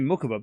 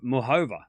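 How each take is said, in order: First: The middle consonant is a hard k sound. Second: The middle consonant is a breathy h sound. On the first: This is how the speaker says it himself. "I'm saying Mukova because I, I'm Australian" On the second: This is how the commentators say it. "All the commentators are pronouncing it Muhova"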